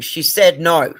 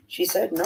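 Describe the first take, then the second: First: Fierce retold yell. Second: Said in the usual way. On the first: Daughter holding harasser by throat.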